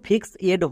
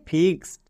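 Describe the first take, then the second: First: The ending is a separate 'ed' syllable. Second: The ending is only a short 'd' sound. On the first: The speaker calls it wrong. "ফিক্স এড হবে না" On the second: The speaker calls it right. "ED এর জন্য ডো মানে ফিক্সড"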